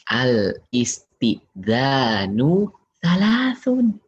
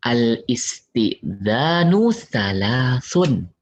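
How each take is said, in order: First: Slow recitation, repeated. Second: Slow recitation. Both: Shown as a demonstration. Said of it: "Kata Nabi".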